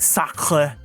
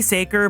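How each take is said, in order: First: The name is said with a French pronunciation. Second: The name is said with an English pronunciation. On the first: The speaker calls it right. "it's supposed to be like sacre, like the French word" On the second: The speaker calls it wrong. "Or I just say Saker"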